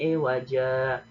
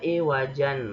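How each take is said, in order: First: The word ends with a lengthened a vowel. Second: The word ends with an n sound. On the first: The reciter is stopping at this word. "diwakafkan menjadi iwaja" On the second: The recitation continues without stopping. "Kan harusnya iwajan"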